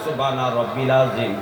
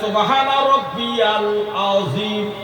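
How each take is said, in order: First: The second word is shortened without 'ya': rabbil. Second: The second word has a 'ya' syllable: rabbiyal. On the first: This is how the listener said it. The speaker calls it wrong. "আর আপনি বললেন" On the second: This is the form written in the hadith. The speaker calls it right. "হাদিসে লেখা আছে"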